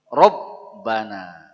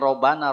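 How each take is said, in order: First: The b sound is held long and pressed. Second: The b sound is short and light. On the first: The speaker calls it right. "huruf ba di situ harus ditekan" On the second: The speaker calls it wrong. "Tidak boleh robana"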